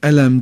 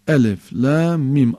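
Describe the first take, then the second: First: The letters are read together as one word. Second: Each letter is named separately with breaks. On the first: The speaker calls it wrong. "Yani elem değil mesela" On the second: The speaker calls it right. "ayrı ayrı sayıyorsun harfleri"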